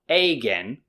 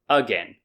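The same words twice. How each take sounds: First: The first vowel is a full 'a' sound. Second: The first vowel is a reduced schwa sound. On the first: The speaker calls it wrong. "so it's not again" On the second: The speaker calls it right. "it's again"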